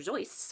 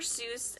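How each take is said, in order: First: The name is said the original, less familiar way. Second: The name is said the common, familiar way. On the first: This is how the man himself said his name. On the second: This is how most people say the name.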